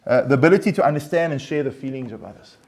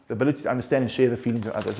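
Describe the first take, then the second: First: Said in the usual way. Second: The same definition again, fast and a little softer; quick restatement. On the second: Shown as a demonstration. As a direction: rattle the definition back off quickly. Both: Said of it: "read the word of empathy".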